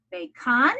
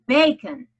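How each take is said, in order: First: "bacon" stressed on the second syllable, bay-KON. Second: "bacon" punched on the first syllable, BAY-kun; stress on first syllable. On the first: Teacher testing a wrong accent on bacon, stressed bay-KON. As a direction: misplace the accent in "bacon", full vowel in a punched final KON. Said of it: "Do I say". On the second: Teacher offering the usual word, bacon stressed BAY-kun. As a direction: hit BAY in "bacon", let the second syllable reduce and fall. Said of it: "or do I say". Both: Shown as a demonstration.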